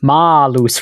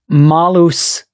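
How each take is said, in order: First: The first vowel is said open. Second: The first vowel is said closed. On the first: It means apple tree. "with an open vowel A was apple tree" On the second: It means evil. "with a closed vowel A was evil"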